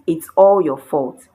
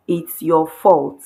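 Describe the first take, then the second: First: All punched louder; all pressed hard, blaming; stress on all. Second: Said in the usual way. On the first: Shown as a demonstration. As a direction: hit the word all to lay the blame. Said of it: "you emphasized, you made it stronger". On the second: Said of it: "you just said".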